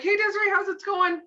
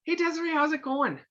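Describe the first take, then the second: First: Bright, high, louder hello that skims over her mood; breezy sing-song greeting; sunny surface-level hello without really asking; chirpy old greeting. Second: Genuine, attentive greeting; caring greeting. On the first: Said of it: "And I'm like". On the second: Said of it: "This is what I do now". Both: Shown as a demonstration.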